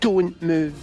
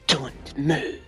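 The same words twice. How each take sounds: First: It is said in a plain, neutral tone. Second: It is said in a threatening tone.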